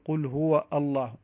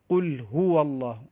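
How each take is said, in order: First: A glottal stop is heard before the last word. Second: The words run together with no glottal stop. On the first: The speaker calls it wrong. "ولا نقول قل هو الله، لا، هذا خطأ" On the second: The speaker calls it right. "فنقول قل هو الله"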